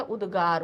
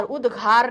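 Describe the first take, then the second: First: उद्गार with a plain unaspirated g; the corrected word उद्गार, with a soft g; correct pronunciation. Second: उद्घार with an aspirated gh, said as the mistake; the wrong version, उद्घार with gh; wrong pronunciation. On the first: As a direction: say उद्गार with a clean g and no breath after it. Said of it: "उद्गार होता है". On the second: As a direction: say उद्घार with a breathy gh sound. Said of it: "उद्घार नहीं होता है". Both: Shown as a demonstration.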